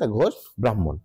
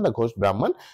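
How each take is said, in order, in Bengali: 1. Brahman বাংলা ধ্বনি দিয়ে উচ্চারণ করা হয়। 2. Brahman ইংরেজি ধ্বনি দিয়ে উচ্চারণ করা হয়। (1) "বাংলায় যেটা হচ্ছে" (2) "আমরা ইংরেজিতে যেরকম উচ্চারণ করবো"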